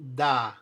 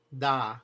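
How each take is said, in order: The two takes are said the same way.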